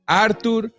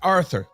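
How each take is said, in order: First: The middle consonant is a plain t sound. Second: The middle consonant is a th sound. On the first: The speaker calls it right. "That's the correct uh, pronunciations" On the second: The speaker calls it wrong. "It's not Arthur. There is no H"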